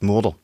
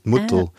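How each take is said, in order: First: It is said in a Badisch accent, not swallowed. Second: It is said in a Swabian accent, partly swallowed. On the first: "bei uns ist Mutter" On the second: "die Schwabe schwätzt mehr so richtig aus dem Hälsen aus"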